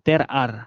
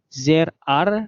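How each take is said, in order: First: The first word begins with a t sound. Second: The first word begins with a z-like sound. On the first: The speaker calls it wrong. "bukan T R R" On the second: The speaker calls it right. "dibacanya Z R"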